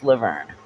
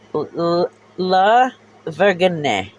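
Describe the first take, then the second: First: The name ends with a 'vern' sound. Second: The name ends with a 'jeen' sound. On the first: The speaker calls it right. "no, dumbass, it's Laverne" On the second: The speaker calls it wrong. "that's how he pronounced it"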